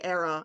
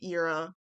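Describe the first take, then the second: First: The word is not said as in 'common era'. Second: The word is said as in 'common era'. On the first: This is how someone else says it. "I don't say era" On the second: This is the speaker's own habitual way. "I say era. Like, you know, the before a common era"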